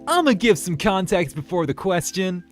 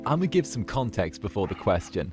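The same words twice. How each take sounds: First: It is read with loud, eager enthusiasm. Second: It is read in a plain, ordinary tone.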